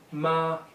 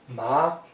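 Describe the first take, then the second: First: The pitch stays high and level. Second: The pitch rises from middle to high. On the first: It means mother. "first tone, flat tone" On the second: It means hemp. "Second tone, rising tone"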